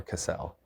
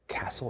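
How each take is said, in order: First: "Cassell" stressed on the end, kuh-SELL; second-syllable stress. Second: "Castle" stressed on the first syllable, CASS-ul. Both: Shown as a demonstration. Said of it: "How do you s-, pronounce it?".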